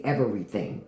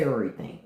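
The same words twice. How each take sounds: First: "everything" with every syllable sounded; proper pronunciation. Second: "everything" slurred into "urrything"; DC pronunciation. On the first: Obeying mother's house rules, fully pronounced "everything". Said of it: "I had to say everything in my mother's house". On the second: Showing what mother banned, DC-style slurred "everything". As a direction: swallow the "v" in "everything". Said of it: "I couldn't say everything". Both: Shown as a demonstration.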